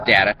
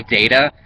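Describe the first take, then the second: First: "data" with a short a, DAT-uh. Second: "data" with a long a, DAY-tuh. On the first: Vlogger insisting on their own way, "data" as DAT-uh. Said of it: "it's data". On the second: Vlogger showing how others say it, "data" as DAY-tuh. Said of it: "a lot of people say data". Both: Shown as a demonstration.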